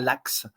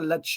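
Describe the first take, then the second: First: The name ends with a 'ks' sound. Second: The name ends with a 'sh' sound. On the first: The speaker calls it wrong. "et pas Lax" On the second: The speaker calls it right. "on prononce bien Lache"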